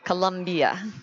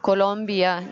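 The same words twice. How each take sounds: First: The name is said with the American pronunciation. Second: The name is said without the American pronunciation. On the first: The speaker calls it wrong. "not Colombia, as we might pronounce in the in the U S" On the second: The speaker calls it right. "it's Colombia"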